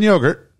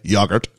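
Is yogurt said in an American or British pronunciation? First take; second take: American; British. First: The word is said in an American pronunciation. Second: The word is said in a British pronunciation.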